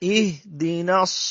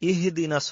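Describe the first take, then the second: First: The h sound closes without any following vowel. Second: An extra i vowel follows the h sound. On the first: The speaker calls it right. "এটা সাকিন দর বেঁধে ছাড়বেন না।" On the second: The speaker calls it wrong. "অনেক সময় আমরা পড়তে গেলে ইহ দিনাস হয়ে যায়, ইহ দিনাস হলে হার নিচে জেরার মতো হয়ে যাবে ইহি"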